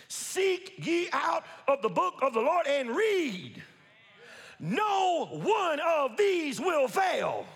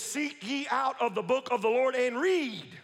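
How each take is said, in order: First: "Seek ye out of the book of the Lord and read" drawn out slowly, word by word; slow emphatic reading. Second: Said in the usual way. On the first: Shown as a demonstration. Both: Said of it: "repeated slower".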